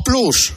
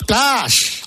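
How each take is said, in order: First: PLUS with a Spanish U. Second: PLUS said as "plas". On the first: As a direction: say Plus as "ploos". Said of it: "O, o Plus". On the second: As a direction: say Plus with a long open A. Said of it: "o Disney Plus". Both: Shown as a demonstration.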